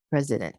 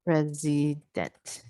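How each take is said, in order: First: Said in the usual way. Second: "president" slowly stretched syllable by syllable, PRES leading; stress on PRES. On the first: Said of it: "This is how I would do it". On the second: Shown as a demonstration. Teacher showing syllable stress, slow "president" with PRES stressed. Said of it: "And then syllable stress".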